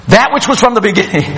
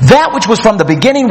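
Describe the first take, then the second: First: Quick, offhand read-out of a letter; casual letter reading. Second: THAT hit first, line driven quickly; off to the races. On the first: Recipient reading John's letter aloud, casual and quick. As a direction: read it quickly like everyday mail. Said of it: "It'd be like, "Hey, I just got a letter". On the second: Preacher reading John's abrupt opening, emphatic and quick. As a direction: launch straight in, punching "That". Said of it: "he's off to the races right out of the box". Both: Acted.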